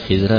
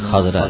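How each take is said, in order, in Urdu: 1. پہلی مصوتہ 'a' کی آواز نہیں ہے۔ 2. پہلی مصوتہ 'a' کی آواز ہے۔ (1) "خضرا نہیں" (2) "خضرا ہے, خاک اور زبر ہے"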